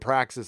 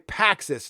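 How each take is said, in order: First: It is said with an R after P. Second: It is said without an R after P. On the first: The speaker calls it wrong. "It's just a bad habit" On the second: The speaker calls it right. "no R"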